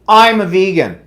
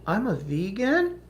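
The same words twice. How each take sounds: First: It sounds preachy and superior. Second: It sounds hesitant and apologetic. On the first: The speaker is right and everyone else is wrong. "That tone would imply that you're right, everybody else here is wrong" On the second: The speaker is sorry to cause trouble. "They don't say, "I'm sorry, I- I'm a I'm a vegan.""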